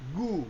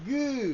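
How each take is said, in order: First: The vowel is short and plain. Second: The vowel is drawn out longer.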